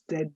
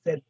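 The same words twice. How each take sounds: First: "Z" with an added vowel, zed-uh; wrong Z ending. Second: "Z" as zed, ending cleanly; no vowel after the d of "Z"; French Z. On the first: Teacher showing what not to say, zed-uh. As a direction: release the d of "Z" into uh. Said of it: "Not Z". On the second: Teacher showing the right way, French zed. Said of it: "it's Z". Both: Shown as a demonstration.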